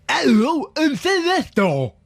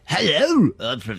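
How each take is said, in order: First: High, slow put-on Leicester voice; camp, over-the-top invented Leicester accent; made-up Leicester accent. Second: Gentler, reined-in made-up Leicester voice; a lighter take on the invented Leicester accent; toned-down made-up Leicester accent. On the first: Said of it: "That's too much, though". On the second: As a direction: pull the made-up Leicester accent back a little. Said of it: "Rein it back a little bit". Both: Shown as a demonstration.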